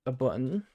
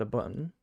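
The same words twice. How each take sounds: First: "button" with a glottal stop, bu'on; "button" said bu'on, the t dropped to a catch in the throat; local British button. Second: Said in the usual way. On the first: Shown as a demonstration. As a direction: swallow the t in "button" like a local Brit. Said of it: "That's what everybody would say around here". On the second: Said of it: "you just say button".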